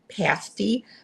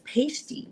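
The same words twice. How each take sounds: First: It is pronounced as the meat-pie word. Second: It is pronounced as the tassel word. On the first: The word names a meat pie. The speaker calls it right. "the word pasty, which is a meat pie" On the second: The word names stripper tassels. The speaker calls it wrong. "she pronounced it as pasty, which, you know, is st- stripper tassels"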